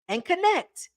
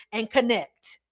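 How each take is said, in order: First: "connect" lifted high, stressed again; higher emphatic repeat. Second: Said in the usual way. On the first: Shown as a demonstration. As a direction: repeat it up high to drive it home.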